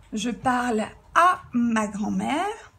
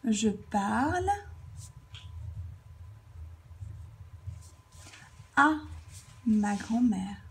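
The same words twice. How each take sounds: First: "à" drawn out and punched; slow example sentence, leaning on "à"; stress on à. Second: Very long pause after "parle", then "à" alone; broken-up dictation. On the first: Teacher showing speech addressed to someone, stressing "à". Example given whole before writing it. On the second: Teacher writing the example out, dictating "Je parle... à... ma grand-mère" in pieces. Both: Shown as a demonstration.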